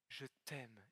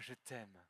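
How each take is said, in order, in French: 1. Le mot t' est fortement accentué. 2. Le mot t' n'est pas spécialement accentué.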